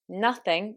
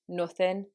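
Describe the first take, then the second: First: The first vowel is an open uh sound. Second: The first vowel is a fuller, rounded u. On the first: "in modern R P British English, we have two vowels for the uh sound" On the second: "with a Manchester accent... replaced by an even slightly fuller version of u"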